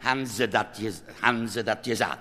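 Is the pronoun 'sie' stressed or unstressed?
unstressed. The pronoun is unstressed and reduced. The question is asked plainly about the addressed people. "Wenn es unbetont ist"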